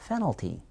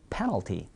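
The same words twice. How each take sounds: First: 페널티 said softly as "fenalty"; soft wrong model, "fenalty"; p swapped for f. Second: 페널티 softly as "penalty"; soft, lower model of "penalty"; correct p. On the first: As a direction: begin 페널티 with f instead of p. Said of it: "그런 단어는 없습니다". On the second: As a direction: give 페널티 a clean opening p. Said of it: "그분 페널티 먹어야 됩니다". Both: Shown as a demonstration.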